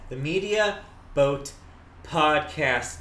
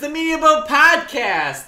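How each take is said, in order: First: The phrase is said slowly. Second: The phrase is said quickly. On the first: The speaker calls it right. "so I wanted to slow it down" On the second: The speaker calls it wrong. "I said that very quickly"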